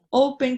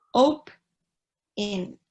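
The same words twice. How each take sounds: First: Said in the usual way. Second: "open" broken in two, "op... en", with a gap; split syllables. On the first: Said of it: "por ejemplo". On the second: Shown as a demonstration. Teacher counting two syllables for students, "open" split as "op... en". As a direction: sound out "open" slowly as two separate syllables. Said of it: "ajá, son dos".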